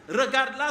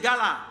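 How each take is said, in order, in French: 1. La phrase est dite en entier, toutes les syllabes. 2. La phrase est condensée en deux syllabes courtes.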